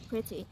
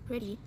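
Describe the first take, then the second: First: The t is a clear British t. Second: The t is an American flap.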